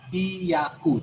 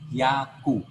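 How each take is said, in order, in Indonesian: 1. Awalnya dipisah menjadi dua suku kata, hi-ya. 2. Awalnya digabung menjadi satu suku kata, hya. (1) "bukan hiyaku" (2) "tetapi hiyaku. Jadikan satu dia"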